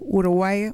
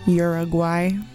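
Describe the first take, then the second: First: The name is pronounced with Spanish sounds. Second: The name is pronounced with English sounds.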